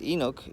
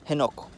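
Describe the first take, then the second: First: The name begins with a vowel, no h sound. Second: The name begins with an h sound. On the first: The speaker calls it wrong. "Enoch is not how you pronounce Enoch in our language" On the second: The speaker calls it right. "It's Henok"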